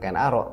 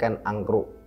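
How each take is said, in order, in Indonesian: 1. Kata kedua dibaca Arok. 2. Kata kedua dibaca Angkruk. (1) "memang membacanya bukan Ken Arok" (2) "tapi Ken Angkruk"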